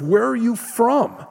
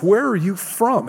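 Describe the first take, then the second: First: High, desperate pleading question; frantic Pilate. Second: A hint of a panicked governor asking; anxious, pressing question; frantic Pilate. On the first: Retold or imitated. Preacher acting Pilate's frantic plea to Jesus. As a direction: push the question up in panic. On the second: Preacher voicing a frantic Pilate to Jesus. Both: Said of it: "Pilate begins to get frantic".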